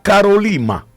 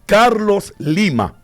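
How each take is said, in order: First: The name runs together without the s sound. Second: The name is said as two words with s. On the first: The speaker calls it wrong. "¿y no es Caro, Ca, Carolima?" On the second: The speaker calls it right. "No, es Carlos Lima"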